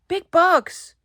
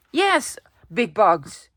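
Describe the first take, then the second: First: Delighted. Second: Said in the usual way. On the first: Shown as a demonstration. Repeats phrase with growing delight.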